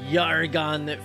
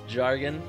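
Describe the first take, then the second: First: The name begins with a Y sound. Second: The name begins with a J sound. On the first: The speaker calls it right. "my character is Yargon Finch" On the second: The speaker calls it wrong. "commonly mispronounced as Jargon"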